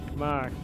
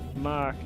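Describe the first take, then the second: First: It is said in a Boston accent, r dropped. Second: It is said in a Boston accent, r dropped.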